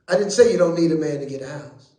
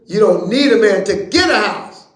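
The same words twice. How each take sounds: First: "say" hit hard in "I didn't say you don't need a man", the rest rattled off fast; stress on say. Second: "get" pushed loud and firm, "You don't need a man to get a house" as a statement; stress on get. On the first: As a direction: lean on "say" and hurry the rest. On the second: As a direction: lean on "get", the point is getting it yourself. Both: Shown as a demonstration. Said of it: "it's how you put emphasis on stuff".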